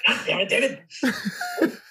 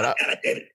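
First: High, slow, strained Freddy rasp; slow hammed-up Freddy snarl; full Freddy voice. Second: Breathy, unvoiced rasp of the curse; hoarse whispered Freddy rasp; whispered Freddy line. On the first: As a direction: drag it out like Freddy Krueger. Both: Shown as a demonstration.

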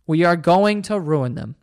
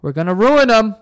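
First: Each word of "We are going to ruin them" spaced out slowly; slow emphatic restatement. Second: Said in the usual way. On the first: Real, not acted. Warning listeners about spoiling kids, slow and deliberate.

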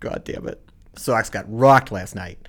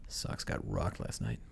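First: Put-on Boston accent. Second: Low, quiet, bummed Boston accent; glum Boston accent. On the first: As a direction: say it like a cheerful Boston fan. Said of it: "talk about the Sox losing in a Boston accent". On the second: Shown as a demonstration. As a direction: mutter it like a sad Boston fan at the bar. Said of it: "So it's more of a".

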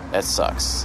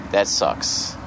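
First: Breathy whispered repeat. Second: Said in the usual way. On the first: Real, not acted. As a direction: whisper it to yourself, resigned.

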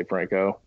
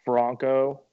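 First: "Franco" as FRANK-oh, short A; Americanized "Franco", like Frank plus oh; ignorant American pronunciation. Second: Careful "Franco" as FRAHN-koh, broad A; "Franco" with an open ah; proper Franco pronunciation. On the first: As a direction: say "Franco" with the A of "bank". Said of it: "just are ignorant and say Franco". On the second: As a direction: say "Franco" with the A of "father", set apart by a pause. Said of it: "I think it's". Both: Shown as a demonstration.

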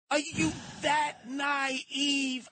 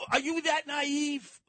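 First: Very slow, stretched incredulous question; drawn-out disbelief. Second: High, slow disbelieving yell; incredulous shout. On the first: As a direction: stretch every word in disbelief. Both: Real, not acted.

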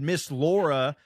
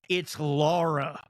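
First: "Laura" in the everyday drawled pronunciation; Laura said Amber's way. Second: Slow, drawn-out correction of "Laura"; mom's corrected Laura. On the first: Amber addressing mom, "Laura" said the ordinary way. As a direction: say "Laura" casually, first vowel like "lore". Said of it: "Amber said, "Miss Laura". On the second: Mom correcting Amber, "Laura" slowly and pointedly pronounced. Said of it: "my mom goes". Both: Retold or imitated.

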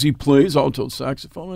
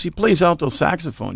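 First: "He plays alto saxophone" with a rising question tune; "saxophone" lifted at the end, asking for confirmation; questioning echo. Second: Said in the usual way. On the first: Retold or imitated. Other man echoes it as question.

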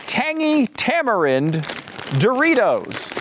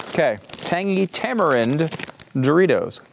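First: Announcing. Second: Said in the usual way. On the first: Real, not acted. Reading the product name.

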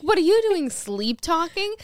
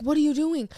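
First: High, loud mock accusation; hammed-up exasperated comeback; retold incredulous retort. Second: Loud, higher mock question; retold pointed query; imitating accusing partner. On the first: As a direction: fling it back, drawing out the last words. Acted retort to sleep talker. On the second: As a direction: act out the sleeper's demand. Acted sleeper questioning her.

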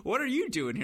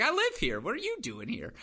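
First: Retold disbelief, pitched higher; the cousin can't believe he's there; incredulous question. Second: Retold retort, "I live here" pitched much higher; cheeky comeback. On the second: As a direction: throw the question right back at him. Narrator bounces question back.

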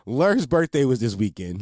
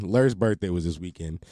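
First: Laughing. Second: Said in the usual way. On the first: Real, not acted. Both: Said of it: "repeats it composed".

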